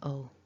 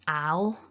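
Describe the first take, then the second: First: The ending is a weak schwa followed by l. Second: The ending has a full, open a vowel with l. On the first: The speaker calls it right. "it's an ul, it's a schwa" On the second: The speaker calls it wrong. "It's not an al"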